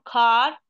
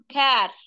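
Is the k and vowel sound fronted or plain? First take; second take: plain; fronted. First: The k and vowel sound plain and back. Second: The k and vowel sound fronted and light. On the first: The speaker calls it wrong. "احنا ما نقول كار" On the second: The speaker calls it right. "نقول كار، كار كأنه عم تلفظ الألف العربي"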